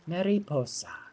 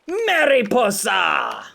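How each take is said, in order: First: The word is said softly and relaxed. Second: The word is said with harsh, forceful emphasis.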